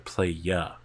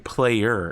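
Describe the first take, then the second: First: The word ends with an open 'ah' sound. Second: The word ends with an 'er' sound. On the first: "into playa" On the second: "turning player into"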